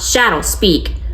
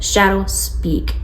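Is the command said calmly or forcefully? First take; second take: forcefully; calmly. First: The command is not firm yet soft. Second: The command is firm but soft. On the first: The speaker calls it wrong. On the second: The speaker calls it right. "your voice had to be firm yet soft"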